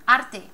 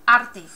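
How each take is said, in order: No difference in how they are said.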